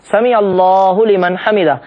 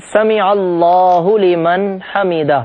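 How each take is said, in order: First: سمیع اللہ لمن حمیدہ slowly, stress on سمیع; carefully articulated سمیع اللہ لمن حمیدہ; correct pronunciation. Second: سمیع اللہ لمن حمیدہ slowly, every Arabic sound clear; correct pronunciation. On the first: Teacher demonstrating the phrase while rising from bowing, slow and careful. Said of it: "یہ جملہ ہماری زبان سے ادا ہو رہا ہو". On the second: Teacher showing viewers the correct recitation, slow and precise. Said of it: "صحیح تلفظ ہے". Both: Shown as a demonstration.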